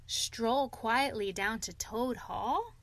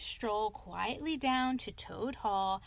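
First: Slow, incredulous echo rising at the end; excited disbelief. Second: Said in the usual way. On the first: A narrator's reading. Rat hearing Toad's plan to stroll home, incredulous. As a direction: repeat it back as an astonished question. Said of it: "greatly excited".

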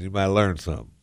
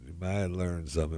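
First: Said in the usual way. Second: Much softer, an aside to himself; quiet echo. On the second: Acted. Host repeating advice to listeners, softly to himself. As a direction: drop the repeat to a near-murmur.

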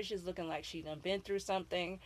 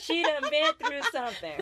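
First: Lightly Southern, folksy Florida twang; Florida accent. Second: Put-on Florida accent. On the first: Retold or imitated. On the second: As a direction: lean into the Florida twang, giggling. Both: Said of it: "That's a Florida accent".

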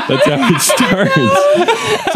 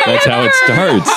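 First: High, slow, laughing singsong; high drawn-out. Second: Said in the usual way. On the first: Shown as a demonstration. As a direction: stretch it out way up high.

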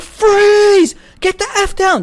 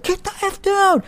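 First: High, loud shouted police command; cops yelling. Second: High shouted police command; cops yelling. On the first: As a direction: bark it like a cop with a gun drawn. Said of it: "they're like". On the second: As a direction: yell it down the barrel of a gun. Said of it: "everything, like". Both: Retold or imitated.

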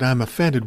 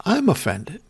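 First: Said in the usual way. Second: Mock offended. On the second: Mocking her complaint back.

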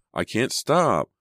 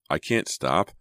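First: High, slow, drawn-out cry on stop; panicked cry leaping up on the last word; escalated panic. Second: Tense cry near speaking pitch; first, restrained note of panic; contained alarm. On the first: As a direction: wail it in desperation. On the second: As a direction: say it helplessly, not yet shouting. First cry as brakes fail. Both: A narrator's reading.

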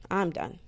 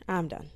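Both takes have the same delivery.

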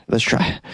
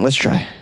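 First: Let's try whispered, no voice at all. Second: Said in the usual way. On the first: Shown as a demonstration. Host whispering a pep talk before trying the accent. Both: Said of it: "I can't really do a Scottish accent. Let's try".

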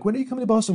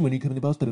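First: High, whiny imitation of a nagging fan; mock pushy fan. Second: A milder repeat of the whiny fan voice; mock pushy fan, repeated. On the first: Comedian mocking Boston fans who nag online, in a high whiny voice. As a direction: needle him like an entitled fan online. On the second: Comedian repeating the nagging Boston fan, closer to his own voice. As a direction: keep nagging but let it drop back down.

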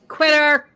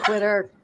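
First: Louder, higher mocking call; loud teasing jab. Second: Said in the usual way. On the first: Real, not acted. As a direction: throw the taunt out loud. Teasing a player who backs out.

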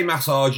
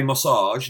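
First: Massage with a full front MASS; massage stressed on first A. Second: Massage with reduced first A; massage stressed on second syllable. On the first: Shown as a demonstration. Host contrasting his own way, massage stressed on first A. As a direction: say massage with weight on the first syllable. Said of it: "I say massage". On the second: Retold or imitated. Host quoting co-host's way, massage stressed on second syllable. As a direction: imitate co-host's massage, weight at the end. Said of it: "you say massage".

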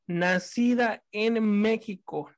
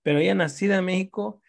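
First: Slow, weighted "Nacida en México"; emphatic. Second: Said in the usual way. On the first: Real, not acted. Speaking to a friend about her sister, slow emphatic "Nacida". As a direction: lean hard on "Nacida". Stressing she was Mexican-born.

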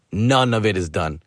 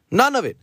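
First: Said in the usual way. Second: "None" jumps much higher, hit hard, "of it" falls away; stress on None. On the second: Real, not acted. Repeating to listeners that the friend ignored his notes, "None" stressed high. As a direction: punch the word "None" high and sharp.

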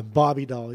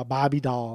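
First: Said in the usual way. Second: Bobby Doll with Dahl said like doll; Australian-style Bobby Doll. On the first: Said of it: "like Barbie doll". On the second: Shown as a demonstration. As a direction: say Bobby Doll the way an Aussie would. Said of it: "like you're Australian".

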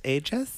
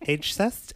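First: Ageist asked as age-ist, rising; questioning correct pronunciation; testing the right word. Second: Age-cist asked with an s before ist, rising; questioning mispronunciation; testing the wrong word. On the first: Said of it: "Age-cist?". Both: Shown as a demonstration.

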